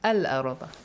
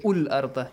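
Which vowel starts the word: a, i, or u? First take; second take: a; u. First: The word begins with an a vowel. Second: The word begins with a u vowel. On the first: The speaker calls it right. "it always takes a fatha" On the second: The speaker calls it wrong. "Do not say ul-arda"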